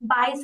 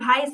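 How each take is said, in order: First: The word begins with a B sound. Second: The word begins with a V sound. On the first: The speaker calls it wrong. "বাইশ হবে নাকি" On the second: The speaker calls it right. "ভ নিয়ে আসুন তো"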